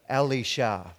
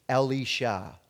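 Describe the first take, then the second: No difference in how they are said.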